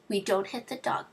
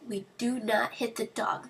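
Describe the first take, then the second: First: It is said in a gentle tone. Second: It is said in a stern tone.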